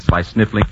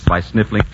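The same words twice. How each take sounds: The two takes are said the same way.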